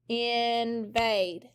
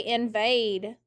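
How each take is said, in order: First: "invade" as two long, level beats; syllable by syllable. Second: Said in the usual way. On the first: Shown as a demonstration. Teacher clapping for the class, "invade" drawn out by syllable. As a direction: hold both syllables of "invade". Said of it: "Clap it". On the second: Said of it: "everyone say invade".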